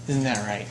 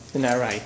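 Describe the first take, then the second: No difference in how they are said.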